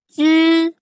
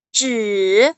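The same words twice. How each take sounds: First: It is said in the first tone. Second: It is said in the third, rising-falling tone. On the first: "dari yang pertama itu" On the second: "nada ketiga itu naik turun"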